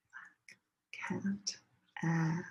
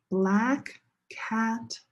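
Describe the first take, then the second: First: Whisper. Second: Said in the usual way. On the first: Shown as a demonstration. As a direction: barely voice it, let the class lead. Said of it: "second time say it together with me". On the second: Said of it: "first time listen".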